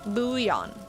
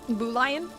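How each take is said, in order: First: The L sound is left silent. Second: The L sound is clearly pronounced. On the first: The speaker calls it right. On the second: The speaker calls it wrong.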